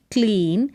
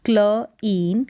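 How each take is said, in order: First: Said in the usual way. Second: क्ल इन in two parts; इन with long ee, apart from क्ल; sounded out. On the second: Shown as a demonstration. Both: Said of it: "C L का उच्चारण क्ल".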